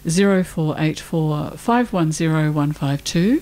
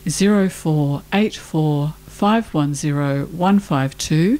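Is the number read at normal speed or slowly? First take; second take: normal; slowly. First: The number is read at normal speed. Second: The number is read slowly.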